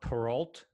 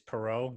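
First: The name is said with an English pronunciation. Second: The name is said with a French pronunciation. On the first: This is how people usually say the name. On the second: This is the original form of the name.

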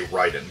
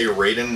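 First: The name is said with a Japanese-style pronunciation. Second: The name is said with an anglicized pronunciation. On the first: It refers to the Japanese shooter game. "that's how I've heard the Japanese people pronounce it" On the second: It refers to the fighting game character. "I say Raiden when we're talking about Mortal Kombat"

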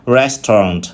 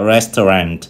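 First: It is said in a British accent. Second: It is said in an American accent. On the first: "tiếng Anh người Anh đọc là restaurant" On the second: "người Mỹ đọc là restaurant"

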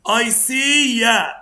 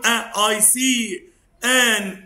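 First: The words are linked together into one flow. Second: Each word is said separately without linking. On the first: The speaker calls it right. "بص هنوصل في بعضه ازاي" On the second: The speaker calls it wrong. "مش هقول اي سي ان انت and an axe. لا مش عايز كده"

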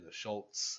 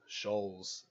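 First: A crisp T sound comes before the final s. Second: The ending is flat, with no T sound. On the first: The speaker calls it right. "with the T in there" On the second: The speaker calls it wrong. "it sounds a lot more flat"

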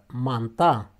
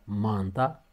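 First: The stress is on the last syllable. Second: The stress is on the first syllable. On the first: "pe ultimul" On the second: "pe primul"

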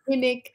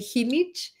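First: The name is said with English pronunciation. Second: The name is said with Spanish pronunciation. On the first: The speaker calls it wrong. "here in the US, most people say Jinich" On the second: The speaker calls it right. "in Mexico we say Jinich"

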